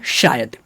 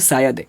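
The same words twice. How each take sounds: First: The word begins with an sh sound. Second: The word begins with a plain s sound. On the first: The speaker calls it right. "But होता है क्या है, शायद" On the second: The speaker calls it wrong. "आप बोलते होंगे शायद"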